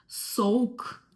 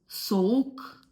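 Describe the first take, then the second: No difference in how they are said.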